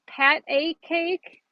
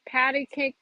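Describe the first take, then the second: First: The first word is said as pat a. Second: The first word is said as patty. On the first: The speaker calls it right. "It's Pat A Cake" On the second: The speaker calls it wrong. "I always said Patty"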